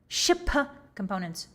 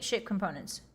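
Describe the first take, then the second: First: The phrase is said more slowly. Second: The phrase is said quickly. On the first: The speaker calls it right. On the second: The speaker calls it wrong.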